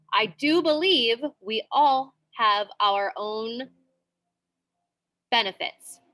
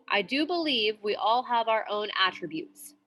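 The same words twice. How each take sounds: First: Slow, deliberate "I do believe"; slow emphasis demo; emphatic do. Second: Said in the usual way. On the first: Shown as a demonstration. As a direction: lean on "do" in "I do believe" to add emphasis. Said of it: "so if we're adding emphasis". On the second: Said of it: "that is one example".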